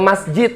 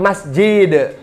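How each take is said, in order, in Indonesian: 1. Kata ini diucapkan dengan bunyi Indonesia sehari-hari. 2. Kata ini diucapkan dengan bunyi huruf Arab yang teliti.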